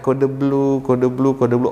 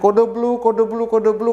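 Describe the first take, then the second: First: It is said quietly, without shouting. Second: It is shouted as loudly as possible.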